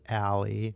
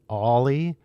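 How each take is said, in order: First: The name does not sound like 'Ollie'. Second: The name sounds like the word 'Ollie'. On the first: "that's how I think of that" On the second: "if you said it like this, right, it would be like Ollie"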